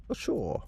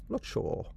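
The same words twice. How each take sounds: First: Said in the usual way. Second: Whispered to himself; whispering. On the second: Real, not acted. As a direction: breathe it out unvoiced. Repeats the words, whispered.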